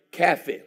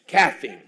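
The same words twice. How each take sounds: First: CAFFEINE said loud and cutting. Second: Caffeine louder with a laugh. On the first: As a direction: land Caffeine like a punch line. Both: Acted. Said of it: "till I hit your house".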